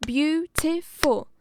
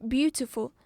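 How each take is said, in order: First: "beautiful" in three slow, loud beats, BEAU, TI, FUL; clapped-out syllables. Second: Said in the usual way. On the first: Shown as a demonstration. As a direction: punch each syllable of "beautiful". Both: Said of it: "it's just clapping to the beat".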